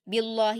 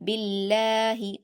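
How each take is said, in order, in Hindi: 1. लाम की आवाज़ भारी और मोटी है। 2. लाम की आवाज़ पतली और हल्की है। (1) "बिल्लाहि नहीं बोलना, वो वो पुर हो जाता है जो कि गलत है" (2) "अल्लाह को आपको बारीक पढ़ना है"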